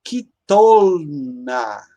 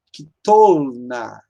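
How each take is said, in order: First: Kitolna drawn out very slowly, ki-tol-na; teacher's slow model of kitolna; slow Hebrew demo. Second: Kitolna said again very slowly and a little lower; second slow model of Kitolna; slow repeated demo. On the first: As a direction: spell kitolna out slowly for students. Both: Shown as a demonstration. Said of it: "Então".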